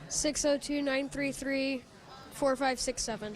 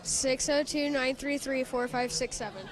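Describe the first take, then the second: First: It is said flatly, without much energy. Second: It is said firmly, with conviction and energy.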